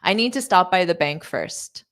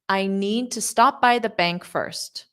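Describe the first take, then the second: First: The sentence is said at a quicker pace. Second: The sentence is said at a slow pace. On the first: The speaker calls it right. "I'll say it more naturally" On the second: The speaker calls it wrong. "That was a little slow"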